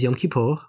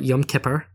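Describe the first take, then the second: First: It is said in a non-anglicized way. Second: It is said in an anglicized way.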